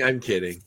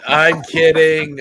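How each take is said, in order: First: Said in the usual way. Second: Slow, stretched teasing; drawn out. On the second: Real, not acted. Host taking back his joke, slow and drawn out. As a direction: drag it out playfully.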